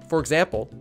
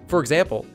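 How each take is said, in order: Both takes have the same delivery.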